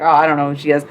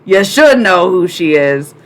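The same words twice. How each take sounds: First: Clueless viewer. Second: "should" punched loud and stretched; stress on SHOULD. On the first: Retold or imitated. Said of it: "And you're like". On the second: Real, not acted. Streamer correcting a viewer who doesn't know Nico, emphatic SHOULD. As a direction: lean hard and slow on "should". Retort to the imagined ignorant viewer.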